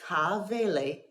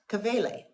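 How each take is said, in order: First: The first vowel is stressed and held long. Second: The first vowel is short and unstressed. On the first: The speaker calls it right. "So we say ka'avele" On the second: The speaker calls it wrong. "not kavele"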